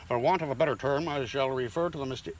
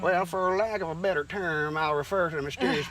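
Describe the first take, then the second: First: It is read in his plain voice. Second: It is read in a put-on farmer voice.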